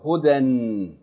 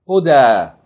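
First: The word ends with an n sound. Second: The word ends in a long vowel, no n. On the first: The reader keeps reading past the word. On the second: The reader stops on the word.

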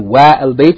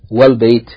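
First: The vowel of 'al' is pronounced separately. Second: The vowel of 'al' is dropped and linked. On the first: The speaker calls it wrong. "You don't say wa al bayt" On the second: The speaker calls it right. "you say wal bayt"

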